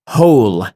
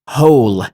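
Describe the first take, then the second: The two takes are said the same way.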